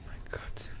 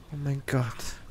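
First: Scared breathless whisper. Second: Said in the usual way. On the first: Real, not acted. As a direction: breathe it out in fear. Horror game, frightened. (ängstliches Flüstern)

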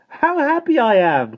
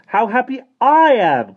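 First: High, loud, slow exclamation falling at the end; happy cry. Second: High, very loud cry with a long stretched "I"; happy cry. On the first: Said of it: "cried Jane". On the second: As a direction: cry out louder, leaning on "I". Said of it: "cried Michael". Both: A narrator's reading.

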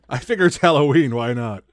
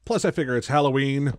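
First: Bursting with Halloween cheer; excited repeat. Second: Said in the usual way. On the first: Real, not acted. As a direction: say it again with gusto. Repeats line after laughing.

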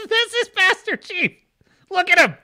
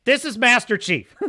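First: High laughing repeat of the name; amused high-pitched laughing repeat. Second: Said in the usual way. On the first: Real, not acted.

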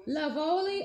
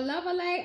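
First: "Lovoli" ending in a lee sound; a first guess at "Lovoli", ending lee; alternative pronunciation. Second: "Lovely" as a second guess at the brand name; alternative pronunciation. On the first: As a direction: say "Lovoli" with a long o and a final lee. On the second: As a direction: say "Lovely" as the other possible reading. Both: Shown as a demonstration. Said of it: "don't know how we pronounce it".

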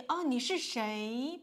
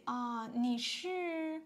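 First: A blunt, demanding 哦，你是谁 said a bit louder; too blunt. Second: Polite. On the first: Teacher showing learners the blunt way to ask who is calling. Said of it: "but it sounds very strong". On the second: Teacher showing learners the polite way to ask who is calling. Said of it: "you can just say". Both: Shown as a demonstration.

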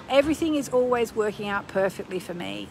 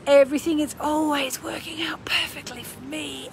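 First: Said in the usual way. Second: Hushed, breathy whisper; whispered affirmation. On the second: Shown as a demonstration. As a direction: whisper it like a secret promise. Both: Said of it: "Let's do that".

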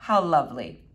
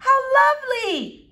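First: Low, deadpan echo; dry, unexcited agreement; unimpressed echo. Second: High, loud, delighted gush; effusive, high-pitched mother. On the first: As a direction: repeat it with no enthusiasm, pitched down. Flora echoes her mother without enthusiasm. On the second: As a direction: coo it like a charmed mother. Mother gushes at boy's manners. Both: Acted.

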